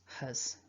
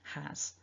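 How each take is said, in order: First: It has a weak schwa vowel. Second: It has a full vowel sound. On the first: "we change the a for a schwa, it becomes huz" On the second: "make sure you get that H in there"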